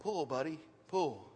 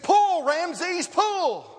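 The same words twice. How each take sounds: First: Soft, lower, gentle command; real quiet. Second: Very high, loud holler; calling out. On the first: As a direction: barely say it, calm and close. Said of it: "Then real quietly he said". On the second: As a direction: bellow the command as hard as you can. Farmer calling out to horse. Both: Retold or imitated.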